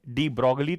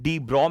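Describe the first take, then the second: First: The surname is said with a 'glee' ending. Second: The surname is said short, ending in 'bro'. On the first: This is how the name is commonly said locally. "Hindustani culture के हिसाब से" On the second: This is the form the speaker uses himself. "डी ब्रॉ मैं बोल रहा हूं"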